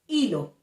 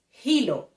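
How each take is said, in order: First: The word begins with no H sound. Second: The word begins with a breathy H sound. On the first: "we don't pronounce the letter H" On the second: "She pronounced the letter H with the English uh, pronunciation"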